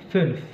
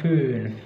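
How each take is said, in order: First: The ü vowel is cut short. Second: The ü vowel is held long. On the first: The speaker calls it right. "dilafalkan pendek seperti pada kata fünf" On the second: The speaker calls it wrong. "Jadi bukan fünf"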